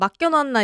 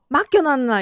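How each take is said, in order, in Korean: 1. 표준어 억양으로 말했어요. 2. 부산 사투리 억양이 강해요. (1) "방금 그 억양이 사투리도 아니었는데?" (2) "맡겨놨나 이렇게 하잖아요"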